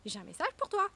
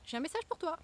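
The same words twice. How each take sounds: First: "message" called out higher and louder, like pounding on the door; postman calling louder. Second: Postman calling through the door, somewhat higher; a delivery man announcing at the door; knocking postman. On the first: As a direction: call it again, knocking harder this time. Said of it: "je vais frapper plus fort". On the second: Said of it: "un facteur qui va venir taper à ta porte". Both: Pretend.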